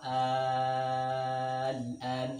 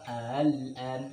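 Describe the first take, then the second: First: The middle vowel is stretched long, six counts. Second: The middle glottal catch is softened, between catch and vowel. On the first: "cara pertama" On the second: "Cara kedua"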